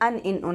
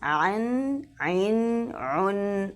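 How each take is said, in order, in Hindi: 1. इन अक्षरों की शुरुआत एक सादे स्वर से होती है। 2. इन अक्षरों की शुरुआत गले की ध्वनि से होती है। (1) "नहीं पढ़ना" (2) "आइन अदा करना है"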